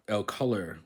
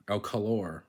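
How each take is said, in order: First: Said in the usual way. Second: "el color" as el co-LOR; full "or" ending on "color"; last-syllable stress. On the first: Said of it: "Spanish words that end in or". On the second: Shown as a demonstration. Learner correcting the Spanish example, "el color" ending in a stressed "or". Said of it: "are stressed on the last syllable".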